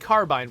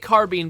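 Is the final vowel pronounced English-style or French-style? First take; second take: English-style; French-style. First: The final vowel has an English-style sound. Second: The final vowel has a French-style sound. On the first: It is how the word looked when first read. "I've been saying carbine for a long time" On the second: It follows the word's French origin. "They say they say carbine because it's from a French word, and that's kind of the French pronunciation of that vowel"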